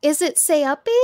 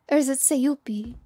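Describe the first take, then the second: First: "Sayupi" said say-AH-pee, rising; name pronunciation guess. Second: "Sayupi" said say-YOO-pee, falling at the end; alternative name pronunciation. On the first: Streamer unsure of a viewer's name, "Sayupi" as say-AH-pee. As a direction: try "Sayupi" with an open ah in the middle. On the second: Streamer offering a viewer another guess, "Sayupi" as say-YOO-pee. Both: Shown as a demonstration. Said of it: "how to pronounce your name".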